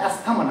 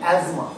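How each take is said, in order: First: The middle has an 's-th' sound. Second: The middle has a 'z' sound. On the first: The speaker calls it wrong. "Actually কিন্তু এটা অ্যাস্থমা না" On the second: The speaker calls it right. "উচ্চারণটা কি অ্যাজমা"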